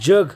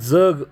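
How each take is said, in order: First: The first consonant sounds like a palatal 'j'. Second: The first consonant sounds like a dental 'dz'. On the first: "जग असा उच्चार जेव्हा केला जातो य मिसळलं जातं" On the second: "इथं अचा उच्चार केला जातो, म्हणून याला दंत तालव्य म्हणायचं"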